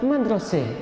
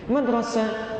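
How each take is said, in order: First: The final vowel leans toward an 'e' sound. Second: The final vowel is an open 'a' sound.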